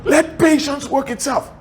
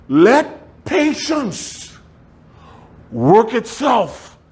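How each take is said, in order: First: High, stress on patience; emphatic restatement. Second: High, very slow, drawn out; slow emphatic quote. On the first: Preacher repeats scripture, high and stressed. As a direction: lean on patience. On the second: Preacher drawing out a scripture quote, slow and high. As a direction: stretch out patience for the church. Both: Shown as a demonstration.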